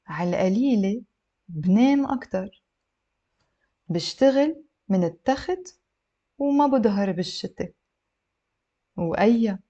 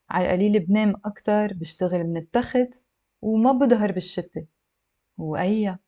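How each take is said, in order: First: Phrase by phrase, long pauses; slow model reading for learners; a little slow. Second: Fluent, slightly brisk model reading; connected speech with shorter pauses; a little faster. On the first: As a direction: leave space after each chunk. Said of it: "a little bit slow". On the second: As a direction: run the phrases together. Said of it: "I'll read it a little bit faster". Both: Shown as a demonstration.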